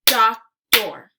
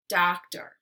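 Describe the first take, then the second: First: Doctor as loud "doc... tor"; Doctor with a clear gap between syllables; split into syllables. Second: Said in the usual way. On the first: Shown as a demonstration. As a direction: punch out both halves of Doctor separately. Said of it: "give you two parts to a word". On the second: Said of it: "swipe to say the whole word".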